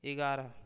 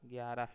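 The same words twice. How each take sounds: First: ग्यारह said as "igaarah"; ग्यारह turned into louder "igaara"; regional mispronunciation. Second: Said in the usual way. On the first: Shown as a demonstration. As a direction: add an "i" before ग्यारह and drop its y. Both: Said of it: "अपने क्षेत्र में प्रचलित प्रयोग".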